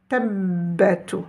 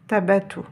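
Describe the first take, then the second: First: The b sound is held long, doubled. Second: The b sound is short and single. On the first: "avec une shidda, je suis obligée d'insister, comme si j'avais deux ba" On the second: "S'il n'y avait pas la shidda, je lirais tabatu"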